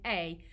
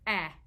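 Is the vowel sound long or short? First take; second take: long; short. First: The vowel is long, like saying 'ay'. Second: The vowel is short, like the start of 'apple'. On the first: "Long A says its name" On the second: "Short vowel sound says A, like in apple"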